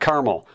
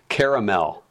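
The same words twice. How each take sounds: First: The middle vowel is dropped, giving two syllables. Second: The middle vowel is kept, giving three syllables. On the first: The speaker calls it wrong. "Not caramel" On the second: The speaker calls it right. "There's an A in between"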